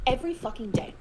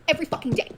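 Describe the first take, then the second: First: Said in the usual way. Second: Every fucking day, EVERY punched high and loud; emphatic. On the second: Real, not acted. Answering the chat, the host stresses every. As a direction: hit EVERY hard, a bitter answer.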